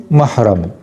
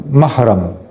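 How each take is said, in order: No difference in how they are said.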